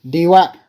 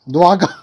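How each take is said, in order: First: The letter D is said separately before Wagon. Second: The D is blended into one word with wagon.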